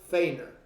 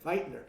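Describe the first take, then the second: First: The name is said without a T sound. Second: The name is said with a T sound. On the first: The speaker calls it wrong. "Is that how you pronounce it?" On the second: The speaker calls it right. "You pronounce it like there's a T in it"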